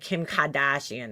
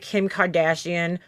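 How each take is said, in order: First: It is said with a mild Boston accent. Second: It is said with a plain, unmarked accent. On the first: "how it would come out in a normal Boston accent" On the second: "instead of saying like"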